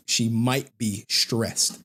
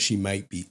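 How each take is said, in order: First: Slow, drawn-out sentence leaning on MIGHT; stress on MIGHT. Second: Said in the usual way. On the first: Real, not acted. Father hedging on therapy report, stress on MIGHT. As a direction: lean hard on "might", taking it slowly. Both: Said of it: "Emphasis on might".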